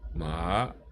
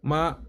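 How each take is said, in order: First: It is said with the second tone. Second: It is said with a steady first tone. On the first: "Second tone" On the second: "the first dot is the steady tone"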